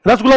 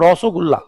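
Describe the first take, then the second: First: The first syllable has a plain 'a' vowel. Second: The first syllable has a rounded 'o' vowel. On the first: The speaker calls it wrong. "रसगुल्ला नहीं बोलते हैं" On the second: The speaker calls it right. "ओ करके बोलो"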